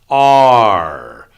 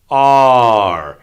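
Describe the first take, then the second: First: The R sound is pronounced with a tense tongue. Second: The R sound is pronounced with a tense tongue.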